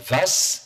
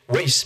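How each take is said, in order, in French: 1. Le nom se prononce à la française. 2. Le nom se prononce à l'anglaise.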